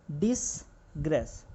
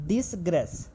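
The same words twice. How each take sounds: First: disgrace stretched slowly, syllable by syllable, while writing; slow drawn-out word. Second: Said in the usual way. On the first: Shown as a demonstration. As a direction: drag out disgrace as you write it. (Disgrace को धीरे-धीरे खींचकर बोलना) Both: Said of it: "next word है".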